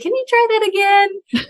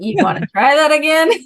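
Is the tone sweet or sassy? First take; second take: sweet; sassy. First: It is said in a sweet tone. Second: It is said in a sassy tone.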